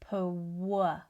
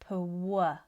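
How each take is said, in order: First: The sound after P is like a W. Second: The same.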